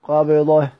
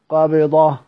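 The two takes are said the same way.

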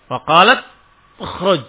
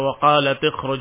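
First: The t runs into kh with no vowel. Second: A short i vowel comes after the t. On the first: The speaker calls it wrong. "Tapi enggak bisa dibaca sukun dengan sukun" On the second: The speaker calls it right. "Maka dibaca waqalat khruj alaihin"

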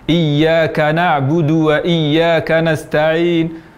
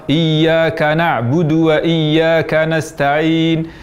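The two takes are said the same way.

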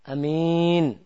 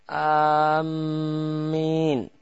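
First: The first vowel is short and the m single. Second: The first vowel is long and the m doubled. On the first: "hamzahnya pendek" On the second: "hamzahnya panjang namun mimnya tasydid"

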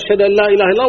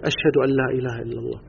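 First: The phrase is said loudly, in a raised voice. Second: The phrase is said quietly, in a low voice. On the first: It is the testimony called out to others. "ثم يرفع صوته" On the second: It is the repeated testimony said only for oneself. "يقول بصوت منخفض يسمع نفسه فقط"

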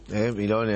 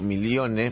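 First: The name has no glide before the ending. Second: The name has a 'y' glide before the ending. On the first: "Milone, así" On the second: "no como Milione"

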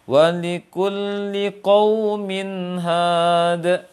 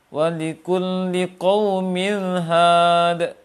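First: The nun is clear and flows straight on. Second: The nun is blurred and not distinct. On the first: The speaker calls it right. "Dia harus jelas tanpa sakta, tanpa pantulan dan tanpa dengung" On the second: The speaker calls it wrong. "Atau samar. ... Tidak jelas nunnya"

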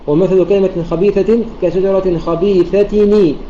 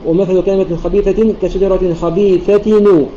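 First: The nun is joined with an i vowel. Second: The nun is joined with a u vowel. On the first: "يقرؤون بكسر" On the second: "نصل بالضم"

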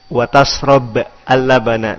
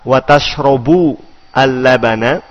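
First: The verb ends with no vowel. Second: The verb ends with the vowel u. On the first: "Dengan jazm" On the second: "Berarti wawunya adalah wawu al-istiknafiyah"

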